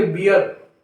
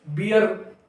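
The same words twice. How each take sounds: First: "बियर" with the final r softened away; unsounded R. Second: "बियर" with the final r clearly pronounced; fully sounded R. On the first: Teacher showing how everyone says it, "बियर" with a silent-like final r. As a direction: let "बियर" end on a schwa, barely any r. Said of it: "इसको सब लोग बोलेंगे बियर". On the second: Teacher showing what nobody says, "बियर" with a clear final r. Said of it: "एकदम साफ नहीं करता है". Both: Shown as a demonstration.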